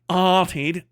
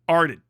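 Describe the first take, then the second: First: It is said with an Australian accent. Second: It is said with an American accent. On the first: The speaker calls it wrong. "But you're like, arted" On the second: The speaker calls it right. "With American accent, it's ard, arded"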